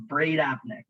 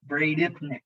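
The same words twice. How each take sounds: First: "Bradypneic" said bray-DAP-nik; preferred pronunciation. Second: "bradypneic" said bray-DIP-nik; disliked pronunciation. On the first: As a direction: give "Bradypneic" an AP in the middle. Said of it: "saying it like that". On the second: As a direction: give "bradypneic" an IP in the middle. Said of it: "I don't even like saying it like that". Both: Shown as a demonstration.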